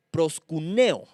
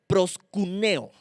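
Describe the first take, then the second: First: Said in the usual way. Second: Proskuneo spelled out slowly, every syllable drawn out; slow careful Greek word. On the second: Shown as a demonstration. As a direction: say proskuneo slowly and deliberately like a teacher. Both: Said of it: "Se escribe con K".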